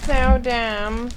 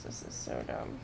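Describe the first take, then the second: First: Louder, fed-up outburst; loud gripe. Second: Voiceless muttered complaint; whispered gripe. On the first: Complaining aloud about the game's rule, loud and fed up. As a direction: blurt it out, exasperated. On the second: Grumbling to himself about the once-a-day rule, whispered. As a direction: say it under your breath, fed up. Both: Real, not acted.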